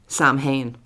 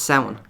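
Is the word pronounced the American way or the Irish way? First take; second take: American; Irish. First: It is said with a common American pronunciation. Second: It is said with the Irish pronunciation. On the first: The speaker calls it wrong. "particularly I think in America, pronounce the word Samhain as" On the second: The speaker calls it right. "no, it's it's Samhain"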